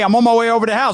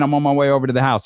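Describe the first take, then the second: First: It is said in an annoyed, hostile tone. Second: It is said in a plain, neutral tone.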